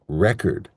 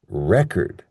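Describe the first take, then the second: First: The stress is on the first syllable. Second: The same.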